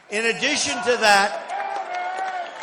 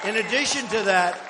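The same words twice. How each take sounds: First: Slow, stretched-out phrase; drawn-out emphasis. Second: Said in the usual way. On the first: Real, not acted. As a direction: drag it out for effect. Repeats phrase, first drawn out.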